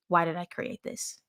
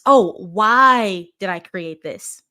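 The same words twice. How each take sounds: First: Softly repeated question, evenly said; quiet reflection. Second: WHY stretched out slow and loud; drawn-out, louder "why" as a realization; emphatic realization. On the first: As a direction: drop the volume, as if asking yourself. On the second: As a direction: lean long and hard on "why". Voices a realization, then repeats it. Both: Retold or imitated.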